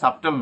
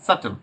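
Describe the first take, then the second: First: A b sound is pronounced before the t. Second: No b sound is pronounced before the t. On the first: The speaker calls it wrong. "এটার উচ্চারণ কিন্তু আমরা ভুল বলি, হ্যাঁ সাবটল না" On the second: The speaker calls it right. "এটার উচ্চারণ হচ্ছে সাটল"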